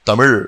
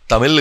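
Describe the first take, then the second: First: The word ends in a ZH-like sound. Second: The word ends in a plain L sound. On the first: The speaker calls it right. "అది తమిళ్" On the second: The speaker calls it wrong. "తమిళ్ కాదు"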